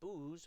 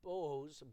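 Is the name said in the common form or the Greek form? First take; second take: Greek; common. First: The name is said in its Greek form. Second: The name is said in its common form. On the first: "that's how the Greek pronounced Boaz" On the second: "now I know it's Boaz"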